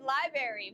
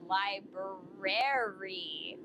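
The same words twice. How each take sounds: First: The first r sound is dropped. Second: The first r sound is pronounced. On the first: The speaker calls it wrong. "There is an R that I am missing in that word. I always pronounce it library" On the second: The speaker calls it right. "but it's li library"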